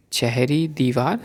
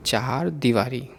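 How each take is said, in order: First: चहरी दीवार said as written; the mistaken चहरी दीवार; wrong form. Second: चार दीवारी with a long चा; the proper चार दीवारी; correct form. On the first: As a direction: say चहरी दीवार, two words. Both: Shown as a demonstration. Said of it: "अशुद्ध और शुद्ध रूप".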